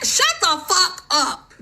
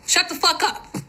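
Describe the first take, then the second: First: Slow, drawn-out, high Shut the fuck up with each word hit; slow, high, seething repeat; slow emphatic retort. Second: Pitched-up snapping retort; high angry dismissal. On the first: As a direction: stretch every word out, high and hard. Telling off critics again. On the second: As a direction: cut them off, high and sharp. Telling off critics. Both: Real, not acted.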